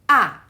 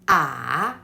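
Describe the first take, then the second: First: The pitch falls sharply from high. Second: The pitch dips and then turns up. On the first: "the stick that come from upper left towards the uh, lower right" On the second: "there is a turn in the third tone"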